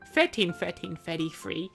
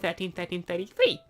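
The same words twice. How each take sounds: First: The th sounds come out distorted. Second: The th sounds come out clear. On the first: The speaker calls it wrong. "he was missing his teeth, his front teeth, and so he said" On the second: The speaker calls it right. "instead of"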